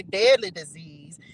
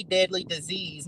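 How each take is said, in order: First: A corrective weight on "deadly"; stress on deadly. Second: Said in the usual way. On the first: Shown as a demonstration. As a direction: lean into "deadly" to correct "dirty". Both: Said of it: "Not dirty, deadly disease".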